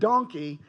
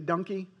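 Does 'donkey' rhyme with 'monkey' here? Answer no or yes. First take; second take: no; yes. First: The first vowel is like the one in 'don'. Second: The first vowel is like the one in 'monkey'. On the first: The speaker calls it right. "for those of you who want it pronounced correctly" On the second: The speaker calls it wrong. "my wife and I say donkey wrong"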